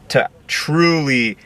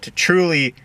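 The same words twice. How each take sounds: First: "truly" drawn out slow and leaned on; slow down and press hard on "truly"; stress on truly. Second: "truly" jumps up high and falls; high stress on truly. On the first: Speaker urging viewers to learn by doing, slow stress on "truly". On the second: Speaker urging viewers to learn by doing, pitched-up stress on "truly". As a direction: lift "truly" high, then let it drop. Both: Real, not acted. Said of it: "emphasis on truly".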